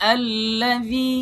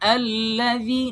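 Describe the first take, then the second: No difference in how they are said.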